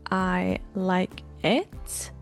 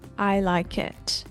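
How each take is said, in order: First: Each word is said separately, without linking. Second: The consonant links smoothly into the next vowel.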